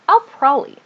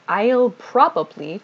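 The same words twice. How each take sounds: First: Probably is shortened with a reduced middle. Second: All syllables of probably are pronounced fully. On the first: "to I'll probably" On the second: "we tend to reduce this I'll probably"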